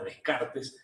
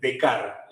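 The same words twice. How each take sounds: First: Every letter is sounded, including both s sounds. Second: The first s and the final ts are silent. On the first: "ustedes le pueden decir Descartes, eh, incluso con bronca" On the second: "más en casi francés, como lo hago yo"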